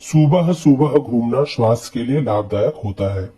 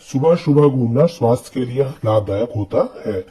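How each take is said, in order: First: The first vowel of subah is long. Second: The first vowel of subah is short. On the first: The speaker calls it wrong. "बड़ा ऊ लगाता हूँ" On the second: The speaker calls it right. "इस वाक्य को सुनने में ही सही अनुभव हो रहा है"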